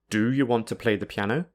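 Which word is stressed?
do. The strong stress is on the word do. The listener is hesitating and the asker is frustrated. "This suggests that the listener is hesitating about whether or not to play the piano"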